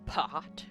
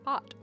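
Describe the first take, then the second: First: The p is released with a puff of air. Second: The p is released without a puff of air.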